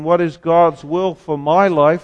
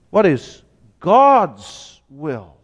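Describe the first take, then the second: First: "my" leaned on, the self-centred version; stress on my life. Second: "God's" slow and drawn out, the weight on it; slow down and press on "God's"; stress on God's. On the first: Preacher to congregation, showing the wrong emphasis: stress on "my". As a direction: put the weight on "my life". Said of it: "emphasis shouldn't be me and my life". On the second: Preacher to congregation, showing the right emphasis: slow stress on "God's". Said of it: "but God". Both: Shown as a demonstration.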